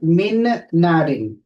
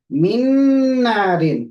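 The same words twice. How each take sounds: First: The first n is pronounced separately, without merging. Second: The two n sounds merge into one long nasal. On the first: The speaker calls it wrong. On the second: The speaker calls it right. "Min narin with ghunna"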